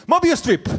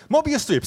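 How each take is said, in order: First: High, loud yelled answer; mock-eager blurt of the answer; retold scream. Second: Said in the usual way. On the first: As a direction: shout it out, sure you've got it. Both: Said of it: "So I scream".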